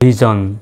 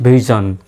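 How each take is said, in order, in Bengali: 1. মাঝের ব্যঞ্জনটি ঘোষ 'zh' ধ্বনি। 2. মাঝের ব্যঞ্জনটি ঘোষ 'zh' ধ্বনি।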